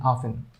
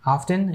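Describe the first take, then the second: First: Second "often" as "offen"; silent T. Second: First "often" as "off-ten"; T pronounced. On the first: Teacher giving the other pronunciation of "often", silent T. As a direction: say "often" with no T at all. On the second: Teacher giving one of both pronunciations of "often", T pronounced. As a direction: say "often" with a clear T. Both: Shown as a demonstration. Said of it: "using both pronunciation".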